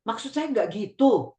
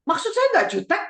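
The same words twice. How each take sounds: First: "Maksud saya nggak gitu" ending on a downward tone; falling tone. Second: High-pitched snippy protest rising at the end; jutek, snippy. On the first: Shown as a demonstration. Parent showing child how to say "Maksud saya nggak gitu" with a falling, non-snippy tone. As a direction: let the pitch come down on "gitu", unforced. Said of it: "sebut lagi tapi nadanya turun ke bawah". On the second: Acted. Child denying being snippy to parent, high-pitched and jutek. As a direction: protest curtly in a much higher voice. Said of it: "suaranya tinggi, terus ngomongnya, eh, jutek".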